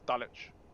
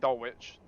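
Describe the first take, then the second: First: The W sound is left out entirely. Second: The W sound is pronounced in the middle. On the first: The speaker calls it right. "You don't pronounce a W in Dulwich" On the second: The speaker calls it wrong. "don't say Dulwich"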